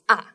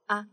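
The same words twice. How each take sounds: First: The pitch starts high and falls sharply. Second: The syllable is short, light and neutral. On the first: "you start from the higher place and goes down" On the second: "The fifth one is like a neutral one"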